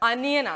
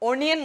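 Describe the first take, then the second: First: The word starts with an 'ah' vowel. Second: The word starts with an 'oh' vowel. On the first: The speaker calls it right. "ആ sound ആണ്" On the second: The speaker calls it wrong. "ഓ sound അല്ല"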